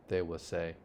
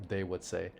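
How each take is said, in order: Both takes have the same delivery.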